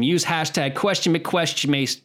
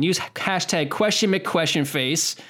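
First: "McQuestionmace" fumbled, ending in "mace" for "face"; tongue-tripped hashtag. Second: "McQuestionface" said slowly and higher, ending in a clear "face"; corrected hashtag. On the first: Host botching the show's hashtag, "McQuestionmace" said with a slipped M. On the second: Host redoing the fumbled hashtag, "McQuestionface" slow with a clear F. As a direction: take "McQuestionface" slowly, landing the F cleanly. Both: Real, not acted. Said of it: "We've been drinking".

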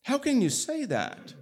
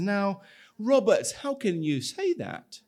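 First: Much higher, incredulous repeat; escalating indignant outrage; more upset. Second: Higher, indignant disbelief; protest, shocked and hurt; a touch of wounded outrage; upset and surprised. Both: Acted. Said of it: "he's pretty upset and surprised".

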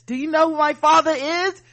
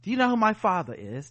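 First: High, loud entitled demand; indignant shout. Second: Said in the usual way. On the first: Retold or imitated. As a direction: demand it, outraged and superior. Entitled mask refuser, repeated louder.

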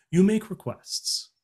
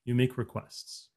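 First: "You make requests" said slowly, higher and hit hard on "You"; stress on YOU. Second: Said in the usual way. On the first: Shown as a demonstration. Coach to listeners, emphasizing answer slowly. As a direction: land the answer, leaning on "You". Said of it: "repeats the answer for emphasis". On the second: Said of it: "repeats the answer plainly".

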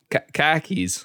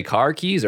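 First: High, r-less Boston "car keys"; Boston accent. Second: Said in the usual way. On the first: Shown as a demonstration. Host checking the phrase in Boston accent. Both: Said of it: "did you say car keys or ca".

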